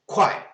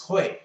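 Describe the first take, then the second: First: The syllable begins with a k sound. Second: The syllable begins with an h sound. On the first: "there are the two pronunciations" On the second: "there are the two pronunciations"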